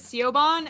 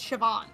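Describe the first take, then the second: First: The name is sounded out the way it is spelled. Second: The name is said with its original Irish pronunciation. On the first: The speaker calls it wrong. "I was pronouncing it as Siobhan and thought it was a man's name" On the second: The speaker calls it right. "Before I realized it's Siobhan. It's just the original. Celtic way to pronounce"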